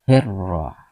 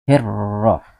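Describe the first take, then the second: The two takes are said the same way.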